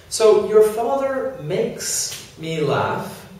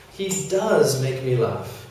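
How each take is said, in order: First: Said in the usual way. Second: Does said firmly, a little slower; emphatic auxiliary does; stress on does. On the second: Shown as a demonstration. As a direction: press down on does. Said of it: "if you want to really say".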